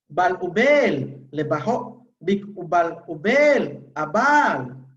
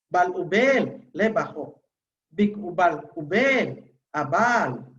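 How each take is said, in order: First: The long vowels are said with high pitch. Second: The long vowels are said with low pitch. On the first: The speaker calls it wrong. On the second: The speaker calls it right.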